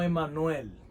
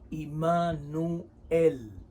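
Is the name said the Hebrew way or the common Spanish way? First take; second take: Spanish; Hebrew. First: The name is said in its common Spanish form. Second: The name is said in its Hebrew form. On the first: This is the commonly taught form of the name. The speaker calls it wrong. "no Emanuel" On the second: This is the original form of the name. The speaker calls it right. "en hebreo se dice Immanuel"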